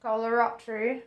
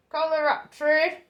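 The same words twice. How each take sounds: First: Said in the usual way. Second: Higher, louder accented Kalaratri; put-on accent. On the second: Shown as a demonstration. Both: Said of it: "I have to say it with an accent".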